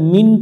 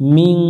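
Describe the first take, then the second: First: The word ends in a clear plain n. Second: The word ends in a nasal ng sound. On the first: The speaker calls it wrong. "এখানে মিন পড়া যাবে না" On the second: The speaker calls it right. "নুনটাকে বাংলায় অনেকস্বরের মতো উচ্চারণ করতে হবে"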